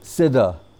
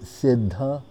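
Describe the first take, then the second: First: The 'dh' sound is plain, without aspiration. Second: The 'dh' sound is aspirated, as spelled. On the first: The word comes out meaning boiled. The speaker calls it wrong. "they don't say the word properly" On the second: The term means perfected. The speaker calls it right. "because it's S-I-D-D-H-A, Siddha"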